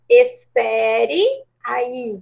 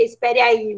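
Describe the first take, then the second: First: Very slow, each syllable of "espere aí" drawn out; formal phrase, slowly. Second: Said in the usual way. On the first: Shown as a demonstration. Teacher dictating the formal phrase to students, slow and deliberate. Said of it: "a gente ia colocar como". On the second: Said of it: "seria mais correto do que".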